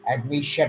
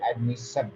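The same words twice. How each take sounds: First: The ending is said with an sh sound. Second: The ending is said with an s sound. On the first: The speaker calls it right. "they are pronounced as sh" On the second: The speaker calls it wrong. "not as s"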